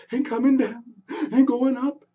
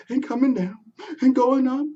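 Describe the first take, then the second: No difference in how they are said.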